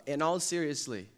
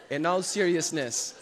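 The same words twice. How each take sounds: First: "seriously" said in place of "seriousness", the slip; "In all seriously" with "seriously" as the wrong ending; wrong word. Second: "seriousness" said correctly, slower, with a laugh; "In all seriousness" with the right ending "-ness"; corrected word. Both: Shown as a demonstration. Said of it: "that's not a word".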